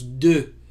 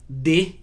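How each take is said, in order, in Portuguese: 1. A vogal é pronunciada com os lábios arredondados e fechados. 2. A vogal é pronunciada com os lábios não arredondados. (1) "em francês nós pronunciamos de" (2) "a gente usa de em português"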